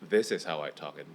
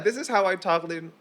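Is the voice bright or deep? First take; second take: deep; bright. First: The voice is deep and low. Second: The voice is bright and light. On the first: "this is how I talk in deeper tone" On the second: "this is how I talk in brighter tone"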